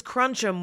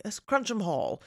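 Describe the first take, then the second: First: Said in the usual way. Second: Cruncham in an English accent, pitched up. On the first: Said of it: "sounds a little less like Cruncham if you're like". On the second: Shown as a demonstration. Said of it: "if I just say it in an English accent".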